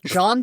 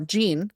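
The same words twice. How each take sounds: First: The name is pronounced in a French way. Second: The name is pronounced in an American English way. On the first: The speaker calls it wrong. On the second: The speaker calls it right.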